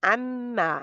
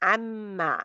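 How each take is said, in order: The two takes are said the same way.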